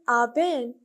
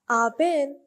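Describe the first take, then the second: First: The words are said very fast and heavily reduced. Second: The words are said very fast and heavily reduced.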